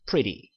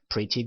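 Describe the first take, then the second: First: The t is softened into a quick flap. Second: The t is said plainly, not softened. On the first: "t 발음을 한번 제가 연음을 한번 시켜서" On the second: "굴리지 않으시고 그냥 pretty good 이렇게 하셔도 됩니다"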